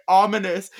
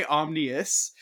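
First: "Ominous" said carefully, higher and louder, as OM-in-us; correct pronunciation. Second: "omnious" with the middle swapped, OM-nee-us; mispronunciation. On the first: Correcting a stumble over the name, "Ominous" pronounced OM-in-us. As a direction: land "Ominous" properly after stumbling, three syllables. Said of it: "I can't say it". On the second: Owning up to the slip, "omnious" wrongly said OM-nee-us. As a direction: say "omnious" as the slip, n straight after m. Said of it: "I kept trying to say". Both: Shown as a demonstration.

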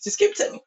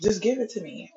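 First: Whispered plea. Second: Said in the usual way. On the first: Real, not acted. Repeated demand to lover.

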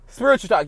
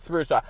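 First: Spiritual talk, called out higher and louder; hyped announcement. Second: Said in the usual way. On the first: Shown as a demonstration. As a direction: hype up Spiritual talk like a show opener. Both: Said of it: "get into this spiritual talk".

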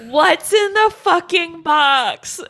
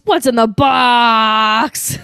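First: Louder, higher and slow anguished cry; desperate shout. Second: Loud, slow, drawn-out anguished yell; desperate shout. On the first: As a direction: scream it out in disbelief. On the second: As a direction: cry it out in despair. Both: Retold or imitated. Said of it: "he says".

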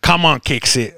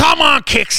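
First: Said in the usual way. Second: Much higher, mock terrace shout; mimicking a shouting fan. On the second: Imitating the fan who yelled at the match, high mock shout. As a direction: belt it out like a fan in the stands. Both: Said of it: "äijä huuteli".

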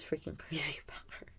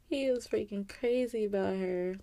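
First: Laughing whisper about him. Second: Said in the usual way. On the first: Real, not acted. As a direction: breathe it out with a laugh.

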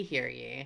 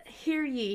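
First: Mock crier call, dropping lower; town crier. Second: Mock town crier call, higher. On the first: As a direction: echo the call, lower and rising. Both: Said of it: "Episode one hundred and eleven".

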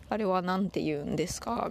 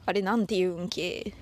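First: Said in the usual way. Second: Casual Toyama-dialect question, ending on a clipped けdialect ending. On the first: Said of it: "みたいな意味でございますね". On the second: Shown as a demonstration. Host demonstrates a Toyama dialect question to listeners, in Toyama dialect. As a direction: ask it the local Toyama way, the stressed ん of 言うん leading into け. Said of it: "あれはなんて言うんですか？みたいな意味".

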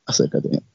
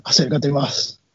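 First: Breathy creepy whisper; menacing whispered come-closer. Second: Softly drawn in, much softer; creepy soft come-closer; hushed lure. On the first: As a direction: whisper it right into their ear. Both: Retold or imitated. Retold killer luring the victim closer.

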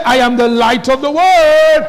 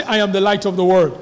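First: Proclaimed louder and higher; loud declaration. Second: Said in the usual way. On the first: Shown as a demonstration. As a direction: shout it out to the church like a rallying cry. Repeats the line, much louder.

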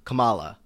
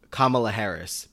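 First: "Kamala" stressed in the middle, kuh-MAH-luh; ka-MAH-la pronunciation. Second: "Kamala" stressed on the first syllable, KAH-muh-luh; KAH-ma-la pronunciation. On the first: Host's mistaken instinct, "Kamala" as kuh-MAH-luh. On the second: Host carefully saying the name, "Kamala" as KAH-muh-luh. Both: Shown as a demonstration. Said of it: "my brain wants me to say".

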